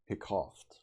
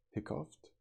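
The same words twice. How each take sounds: First: Said in the usual way. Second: "Hiccuped?" rising high in disbelief; puzzled query. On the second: Real, not acted. Reader puzzled at a strange word, rising query. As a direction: question the odd word. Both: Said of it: "Wait, that's not a hiccup".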